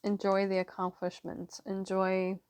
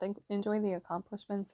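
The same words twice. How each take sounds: First: Talking around a throat lozenge; lozenge in mouth. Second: Said in the usual way. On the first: Real, not acted. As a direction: speak with a lozenge in your mouth. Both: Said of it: "sorry, I have a lozenge in my mouth".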